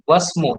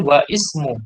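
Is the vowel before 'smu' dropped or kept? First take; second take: dropped; kept. First: The words run together with no vowel before 'smu'. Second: A separate 'i' vowel is sounded before 'smu'. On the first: The speaker calls it right. "Langsung wasmu" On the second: The speaker calls it wrong. "tidak boleh wa ismu"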